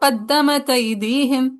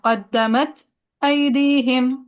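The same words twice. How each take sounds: First: The glottal stop is dropped, words run together. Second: A brief pause comes before the glottal stop. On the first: "पहली नकल" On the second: "सकता"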